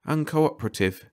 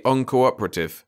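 First: Higher, absently echoed UNCOOPERATIVE; absent-minded. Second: Said in the usual way. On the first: A narrator's reading. Carter echoing Ranson's word, absent-minded. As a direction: repeat UNCOOPERATIVE as if only half listening, pitched up. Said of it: "in an absent way".

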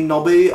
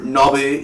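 First: Pleading name called higher, rising; a bad impression of a pleading brother; bad impression of Nobby's brother. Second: Said in the usual way. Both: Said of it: "that was a bad impression".

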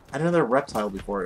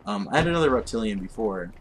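First: Says reptile, corrected and quicker; corrected word. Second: Says reptilian instead of reptile; wrong word. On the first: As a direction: fix it to reptile. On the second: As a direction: reptilian said as a slip. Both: Shown as a demonstration. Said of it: "Why am I saying reptilian?".

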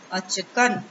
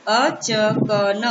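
First: Said in the usual way. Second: Very slow, achkan pulled apart as अ-च-क-न; split into syllables. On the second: Shown as a demonstration. Teacher sounding out achkan slowly for children. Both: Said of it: "अब एक साथ मिला के पढ़ते हैं".

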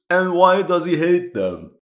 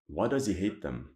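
First: High and louder, punching why; baffled, demanding an answer; incredulous question. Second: Much softer, lower, to himself; puzzling it over quietly; muttered repeat. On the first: Historian questioning the game's story, loud incredulous ask. Puzzled by the officer's hatred. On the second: Historian repeating his question, quiet musing. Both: Real, not acted.

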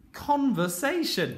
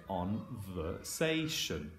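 First: "Conversation" said as one word, high-pitched start; whole blended word. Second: "Conversation" in slow, low, separated chunks; blending sounds slowly. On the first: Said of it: "put them together into the words". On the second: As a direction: stretch "Conversation" out chunk by chunk, softly. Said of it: "put them all together in the word". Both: Shown as a demonstration.

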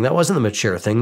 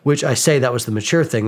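First: Wasn't leaned on a little, the rest level; a light push on wasn't to correct himself; stress on wasn't. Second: Said in the usual way. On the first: Shown as a demonstration. Correcting his own claim about the friends' vote, light stress on wasn't.

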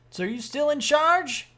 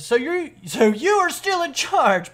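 First: "So are you still in charge" with questioning tune; misread as question. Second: "you are still in charge" slow and emphatic; firm statement. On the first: Sergeant asking who is in charge, "in charge" as a question. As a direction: ask "still in charge" as if unsure. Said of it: "not a question". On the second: Sergeant telling a private, "still in charge" as a firm statement. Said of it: "that was a statement". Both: Acted.

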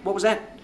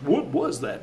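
First: What was that? rising up high and alarmed; startled question. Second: Said in the usual way. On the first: Retold or imitated. Coaxing the DJ with a startled read. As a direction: mimic the startled line for the DJ, lightly alarmed. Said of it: "get him to mimic us". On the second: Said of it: "I was just".

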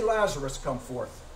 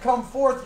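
First: Personal call. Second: Said in the usual way. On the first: Retold or imitated. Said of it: "Why did he say". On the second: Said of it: "if he would have said".

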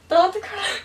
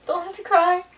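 First: Higher, pleading don't cry; mock breakup plea, higher. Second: Mock breakup plea. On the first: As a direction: plead again with the voice raised. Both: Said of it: "Pretend you're in a serious relationship".

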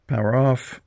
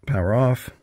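Both takes have the same delivery.

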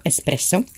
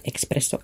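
First: "Espresso" with a clean s, "ess-presso"; correct espresso pronunciation. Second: "Espresso" with an added k, "ex-presso"; wrong espresso pronunciation. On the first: Crafter giving the right name, "Espresso" as "ess-presso". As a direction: say "Espresso" with no k after the E. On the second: Crafter showing the wrong name, "Espresso" as "ex-presso". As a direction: say "Espresso" as "ek-spresso". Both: Shown as a demonstration. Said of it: "not Espresso".

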